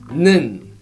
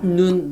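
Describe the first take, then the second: First: The vowel is said with flat, unrounded lips. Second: The vowel is said with rounded lips. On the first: The speaker calls it right. "Make your lips look like flat" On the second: The speaker calls it wrong. "It is not nun nor un"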